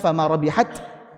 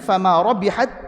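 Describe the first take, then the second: First: The final t is released with audible breath. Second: The final t merges into the following t.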